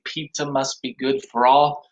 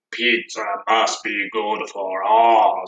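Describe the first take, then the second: First: Said in the usual way. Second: Low, slow Cookie Monster growl. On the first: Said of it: "that last time when we say". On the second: Shown as a demonstration. Teacher demos the last line for kids, low Cookie Monster voice. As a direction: gobble the words like Cookie Monster. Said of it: "like the Cookie Monster does".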